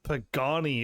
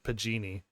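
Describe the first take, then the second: First: The second vowel sounds like 'ah'. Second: The second vowel sounds like 'ee'. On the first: The speaker calls it right. "Pagani is what I actually think it's called" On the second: The speaker calls it wrong. "I think I've been calling it Pagini"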